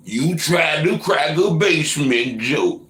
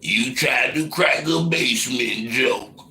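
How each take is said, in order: First: Much higher, louder, slow teasing singsong; louder mocking repeat. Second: Slow, high teasing singsong; mocking repeat. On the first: Repeating a viewer's basement joke back, hammed-up mockery. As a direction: push the tease further, higher and louder. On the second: Teasing a viewer over his basement joke, slow and mocking. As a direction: drag it out to tease the chatter.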